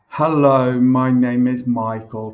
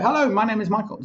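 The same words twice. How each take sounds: First: It is spoken slowly and stiffly. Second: It is spoken quickly and casually. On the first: It sounds stilted and unnatural. The speaker calls it wrong. "when it's kind of normal speed" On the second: It sounds more like conversation. The speaker calls it right. "if it's a little bit more sped up"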